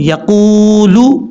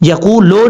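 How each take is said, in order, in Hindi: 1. आखिरी स्वर 'oo' की बंद ध्वनि है। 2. आखिरी स्वर 'o' की मध्य ध्वनि है। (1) "लाम पेश लू होता है" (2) "लो नहीं पढ़ना, यकू लो नहीं है"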